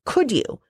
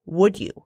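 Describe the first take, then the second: First: "Could you?" with a questioning rise, higher; the wrong phrasing. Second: "Would you?" said evenly as a clear request; the right phrasing. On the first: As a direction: ask "Could you?" as if doubting his ability. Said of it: "Stop saying". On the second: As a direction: ask "Would you?" plainly and confidently. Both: Shown as a demonstration.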